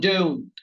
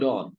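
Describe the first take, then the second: First: The final t sound is pronounced. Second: The final t sound is dropped. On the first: "এবার বলেন ডোন্ট" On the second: "ডোন্ট এর টি বাদ দিলে"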